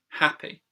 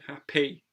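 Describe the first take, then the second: First: The stress is on the first syllable. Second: The stress is on the second syllable. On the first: The speaker calls it right. "the stress goes on usually the first syllable" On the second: The speaker calls it wrong. "it just sounds wrong"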